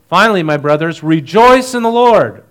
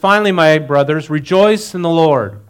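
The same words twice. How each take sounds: First: It is read in an excited tone. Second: It is read in a plain, calm tone.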